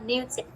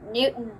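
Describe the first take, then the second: First: The middle T sound is clearly pronounced. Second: The middle T sound is dropped. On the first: This is how the speaker learned to say it. "instead of Newton" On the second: This is how people casually speak over here. "they just cut the T part"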